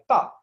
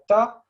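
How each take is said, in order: First: The syllable is cut off short and crisply. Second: The syllable trails on and continues. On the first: "it's kind of it cuts" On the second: "it kind of continues"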